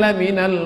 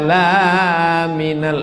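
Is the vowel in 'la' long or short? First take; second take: short; long. First: The vowel in 'la' is kept short. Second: The vowel in 'la' is held long. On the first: It affirms that he is indeed one of the messengers. The speaker calls it right. "Lamnya pendek, lam taukid" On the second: It says he is not one of the messengers. The speaker calls it wrong. "salah. Kalau la minal artinya bukan rasul"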